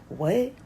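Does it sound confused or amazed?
confused. It sounds confused and doubtful.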